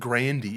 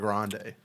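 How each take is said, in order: First: The last syllable ends in an 'ee' sound. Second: The last syllable ends in an 'ay' sound. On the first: The speaker calls it right. "Grandy is how it's actually said" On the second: The speaker calls it wrong. "her name is not [name]"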